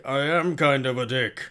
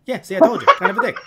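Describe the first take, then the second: First: Mondo. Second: Loud, high New York told-you-so; Grumble. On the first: Mondo admitting his nature to Grumble, put-on voice. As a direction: own up in a put-on character voice. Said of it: "Mondo's like". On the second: Grumble confirming his verdict on Mondo, loud New York grouch. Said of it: "He has this New York accent". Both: Retold or imitated.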